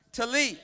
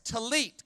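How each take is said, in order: First: Talit called out, a bit louder; with gusto. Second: Talit said tuh-LEET, stress on the end; Hebrew word talit. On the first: Real, not acted. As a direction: say Talit back with some gusto. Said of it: "say that with me with some gusto". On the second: Shown as a demonstration. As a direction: model talit calmly for the room. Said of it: "that word sounds like this".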